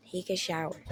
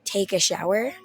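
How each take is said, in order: First: Softer, flat repeat of Take a shower; stunned quiet echo. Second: Said in the usual way. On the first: Retold or imitated. Telling the story, echoing the instruction quietly in disbelief. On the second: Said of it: "And she's like".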